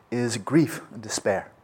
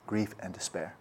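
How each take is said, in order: First: Slow and weighty, stress on grief; stressed naming. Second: Soft echo. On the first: Teacher naming the near enemy, slow and stressed. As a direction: lay down "grief" slowly and firmly. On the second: Teacher echoing the phrase to students, much softer. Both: Shown as a demonstration.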